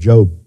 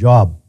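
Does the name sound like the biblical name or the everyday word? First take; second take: biblical name; everyday word. First: It is said as the biblical name. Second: It is said like the everyday word for work. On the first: The reader is familiar with the Bible. The speaker calls it right. "instead of Job" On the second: The reader is not familiar with the Bible. The speaker calls it wrong. "he called this one Job instead of Job"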